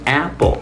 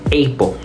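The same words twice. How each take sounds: First: The first vowel differs from the letter name A. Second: The first vowel sounds like the letter name A. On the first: The speaker calls it right. "la pronunciación en realidad es Apple" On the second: The speaker calls it wrong. "Si seguimos la lógica de lo que hablamos, la pronunciación debería ser Apple"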